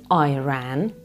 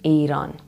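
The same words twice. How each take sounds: First: The first syllable sounds like 'eye'. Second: The first syllable sounds like 'ee'. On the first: The speaker calls it wrong. "My country is not an Apple product, so please stop pronouncing it" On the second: The speaker calls it right. "Iran is what we call it"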